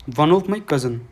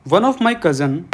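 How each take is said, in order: First: Said in the usual way. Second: "One of my cousin" read aloud, higher and louder, leaning on "of"; read out with emphasis. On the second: Shown as a demonstration. Teacher reading the exam sentence to students, lifting "of". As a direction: announce the example sentence "One of my cousin" and lean on "of". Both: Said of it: "क्या है इसमें देखो".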